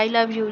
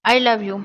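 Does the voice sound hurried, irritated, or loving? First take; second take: hurried; loving. First: It is said quickly and carelessly. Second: It is said with a warm, affectionate tone. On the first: She only wants to get it over with. The speaker calls it wrong. "जल्दी से बोल गई।" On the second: She means it with affection. The speaker calls it right. "अब प्यार आ रहा है"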